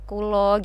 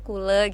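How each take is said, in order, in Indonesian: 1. Kata ini berakhir dengan vokal 'o'. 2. Kata ini berakhir dengan vokal 'e'. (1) "Kalau bahasa Jawa Jepara itu kan pakainya o" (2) "kalau di Serang tuh kule gitu"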